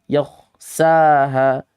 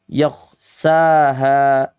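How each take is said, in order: No difference in how they are said.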